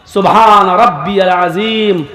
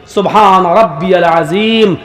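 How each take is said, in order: Both takes have the same delivery.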